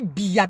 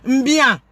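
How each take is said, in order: First: The name starts with a plain b sound. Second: The name starts with an m before the b. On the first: The speaker calls it right. "prononcer son nom de manière élémentaire" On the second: The speaker calls it wrong. "ce n'est pas comme ça qu'on prononce"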